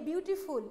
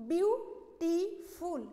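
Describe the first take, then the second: First: Said in the usual way. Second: "বিউটিফুল" very slowly broken as বিউ, টি, ফুল; syllable by syllable. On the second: Shown as a demonstration. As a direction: say "বিউটিফুল" in three separate drawn-out syllables with pauses. ("বিউটিফুল" ভেঙে ভেঙে, ধীরে: বিউ-টি-ফুল) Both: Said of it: "ভেঙে ভেঙে উচ্চারণ করি".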